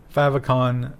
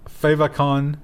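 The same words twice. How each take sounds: First: Favicon said "FAV-uh-con"; short-A pronunciation. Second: Favicon said "FAY-vuh-con"; long-A pronunciation. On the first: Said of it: "always heard it pronounced as favicon". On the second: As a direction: say favicon starting like "fave". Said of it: "fave would be favorite". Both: Real, not acted.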